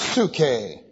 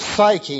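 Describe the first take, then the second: First: The word is said with a Greek pronunciation. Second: The word is said with an English pronunciation. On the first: "The Greek word is pronounced psuche" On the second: "they often pronounce this psyche in English"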